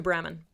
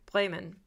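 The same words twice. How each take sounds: First: BREMEN as English "Bremmen", short first vowel; English pronunciation. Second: BREMEN as German "Bray-men"; German pronunciation. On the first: Correcting the pretentious traveller, English pronunciation. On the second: Mocking someone dropping German names into English, German pronunciation. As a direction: say Bremen with a long German ay vowel. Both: Acted. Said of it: "to throw in German pronunciations".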